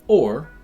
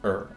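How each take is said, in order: First: The vowel is a full 'or' sound. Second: The vowel is a reduced 'er' sound. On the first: The speaker calls it wrong. "It's not pronounced or" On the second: The speaker calls it right. "but er. It's reduced"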